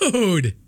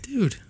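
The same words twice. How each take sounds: First: It sounds happy and excited. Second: It sounds flirty and teasing.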